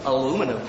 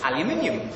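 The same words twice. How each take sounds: First: American "a-LOO-mi-num"; American accent. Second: Said in the usual way. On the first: Shown as a demonstration. Brit trying the American word, American accent. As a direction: say the American form. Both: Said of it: "my best American accent".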